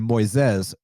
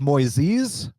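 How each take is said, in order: First: The name is said the English-speaking commentator's way. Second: The name is said the Brazilian Portuguese way. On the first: This is how the commentator says the name. "I heard Anik say Moises" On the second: This is how Brazilians say the name. "Brazilians have told me it's Moises"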